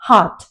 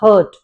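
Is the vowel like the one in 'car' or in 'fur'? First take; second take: car; fur. First: The vowel sounds like the one in 'car'. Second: The vowel sounds like the one in 'fur'. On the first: The speaker calls it right. "Pronunciation is always हार्ट" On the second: The speaker calls it wrong. "कई बार हम कह देते हैं हर्ट. It's not हर्ट"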